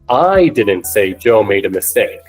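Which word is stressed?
I. The word I carries the strongest stress. Someone else said it. "When I put the emphasis on I"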